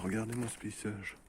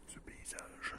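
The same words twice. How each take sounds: First: Said in the usual way. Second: Soft breathy whisper; whispered echo. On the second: Acted. Gamer whispering to viewers about the landscape. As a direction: hush the words in awe.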